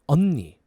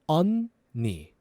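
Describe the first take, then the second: First: It is said faster. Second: It is said slowly.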